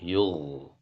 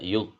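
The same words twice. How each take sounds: First: The gh sound keeps flowing briefly. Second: The gh sound is cut off abruptly. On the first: The speaker calls it right. "Tapi yug" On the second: The speaker calls it wrong. "enggak ada yug"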